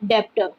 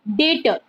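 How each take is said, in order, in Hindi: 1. b जैसी ध्वनि t से पहले सुनाई देती है। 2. t से पहले कोई b ध्वनि सुनाई नहीं देती। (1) "don't pronounce it as डेप्टर" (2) "बी is silent in this, so we pronounce it as डेटर"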